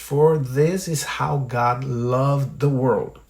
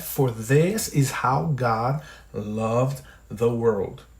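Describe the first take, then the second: First: It is said at normal speed. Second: It is said slowly.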